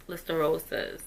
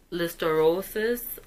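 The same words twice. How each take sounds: First: "listeriosis" said smoothly and softer, as if now sure of it; settled pronunciation. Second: "listeriosis" said slowly, syllable by syllable, rising at the end; careful pronunciation. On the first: Confirming the infection's name, soft, sure "listeriosis". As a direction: repeat "listeriosis" quietly once it sits right. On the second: Reading out the autopsy result, slow careful "listeriosis". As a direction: sound out "listeriosis" carefully, like a new word. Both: Shown as a demonstration. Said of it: "let me try to pronounce it right".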